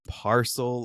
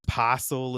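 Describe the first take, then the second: First: It is said in an American accent. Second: It is said in an Australian accent. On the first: "instead of" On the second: "she pronounces things in an Australian accent"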